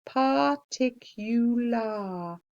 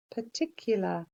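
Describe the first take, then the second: First: Particular said par-tic-u-lar, every part clear; careful spelling voice on particular; spelling pronunciation. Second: Said in the usual way. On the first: Shown as a demonstration. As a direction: say particular as it is spelt. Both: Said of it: "I remember this one as particular".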